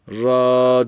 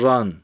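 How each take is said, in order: First: The syllable ends on the vowel, without n. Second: The syllable ends with an n sound. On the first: The reader stops at this point. "Ra diye durmamız gerekiyor" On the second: The reader continues without stopping here. "Normal okunuşu ran"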